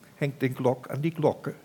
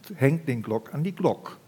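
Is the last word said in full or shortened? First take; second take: full; shortened. First: The last word keeps its final vowel. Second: The last word drops its final vowel.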